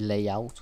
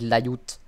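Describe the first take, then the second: First: The word is said with an English pronunciation. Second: The word is said with a French pronunciation. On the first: "Je sais que ça se dit layout. Quelque chose comme ça" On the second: "parce que moi je suis français, alors je dis layout"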